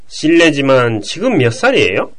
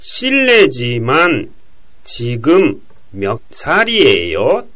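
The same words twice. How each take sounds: First: It is spoken at a normal, quick pace. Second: It is spoken slowly, with short pauses.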